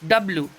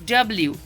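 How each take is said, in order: First: The last syllable is a plain 'bloo'. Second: The last syllable has a y glide, 'blyoo'. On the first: The speaker calls it wrong. "ज्यादातर लोग डब्लू बोलते हैं ... जो कि गलत उच्चारण है" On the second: The speaker calls it right. "आप कीजिए डब्ल्यू"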